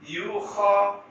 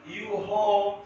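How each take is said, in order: First: The middle consonant is a raspy throat sound. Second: The middle consonant is a soft breathy h. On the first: The speaker calls it right. "Mesti gegar" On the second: The speaker calls it wrong. "yang salah yuho"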